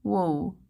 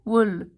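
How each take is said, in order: First: "Wool" as "woh", with the L dropped; "Wool" rounded into "woh"; accent demo. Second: "Wool" with short oo and a clear L; short, clearly finished "Wool"; accent demo. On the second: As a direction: say "Wool" with the vowel of "book", ending on L. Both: Shown as a demonstration. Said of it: "Are pretty different".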